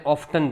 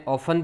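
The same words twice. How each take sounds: First: ઓફ્ટન as "OFF-tun"; pronounced T. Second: ઓફન as "OFF-un"; silent T. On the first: Teacher showing American variants, pronounced T. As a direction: say ઓફ્ટન with the T sounded. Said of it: "ઓફ્ટન પણ બોલે". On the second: Teacher showing American variants, silent T. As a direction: say ઓફન with no T sound. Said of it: "ઓફન પણ બોલે". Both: Shown as a demonstration.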